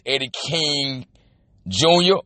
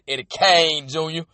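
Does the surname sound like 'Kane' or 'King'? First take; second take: King; Kane. First: The surname is said with the vowel of 'king'. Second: The surname is said with the vowel of 'Kane'.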